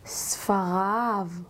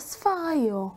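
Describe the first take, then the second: First: The word ends with an 'av' sound. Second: The word ends with a non-'av' sound. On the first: The speaker calls it right. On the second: The speaker calls it wrong.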